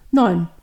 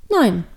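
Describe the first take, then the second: First: Low, loud, short answer; old man. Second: Put-on loud childlike answer; little devil girl. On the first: Old man answers the devil girl, firm man's voice. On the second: Devil girl echoes the old man, firm child's voice. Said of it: "sagt auch Luzifer". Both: A narrator's reading.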